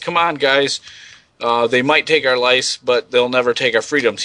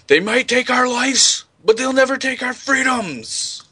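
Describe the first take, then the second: First: It is said flatly, without emotion. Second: It is said with passionate, stirring emotion.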